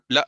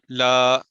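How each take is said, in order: First: لا cut short with a catch; clipped wrong reading. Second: لا held too long; over-stretched wrong reading. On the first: Teacher showing what not to read, cut-short لا. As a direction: snap لا shut too early. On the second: Teacher showing what not to read, drawn-out لا. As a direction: drag out the vowel of لا. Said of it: "دونوں wrong ہیں". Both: Shown as a demonstration.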